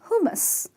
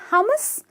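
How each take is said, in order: First: The first vowel is a long oo sound. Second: The first vowel is a short uh sound. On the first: The speaker calls it right. "the U is pronounced as double O" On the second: The speaker calls it wrong. "not hummus"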